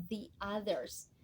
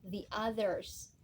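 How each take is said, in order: Both takes have the same delivery.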